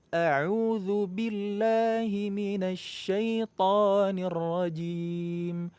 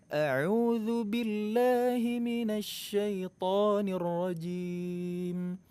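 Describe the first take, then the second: Both takes have the same delivery.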